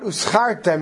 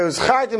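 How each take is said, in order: First: The word is said with an s sound. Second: The word is said with a z sound. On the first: You get paid. The speaker calls it wrong. "not uzchartem, and you get paid" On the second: You should remember. The speaker calls it right. "and you should remember"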